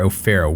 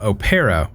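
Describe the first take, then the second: First: The middle consonant is an F sound. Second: The middle consonant is a hard P sound. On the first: "English usually pronounces the P H sound similar to F" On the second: "pronounce Windfury's name with a hard P"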